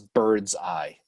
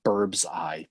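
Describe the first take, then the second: First: The first word ends in a d sound. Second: The first word ends in a b sound. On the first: This is the usual way to say it. "I always thought it is bird's eye" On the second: This is the group's own joke way to say it. "we call it burb's eye"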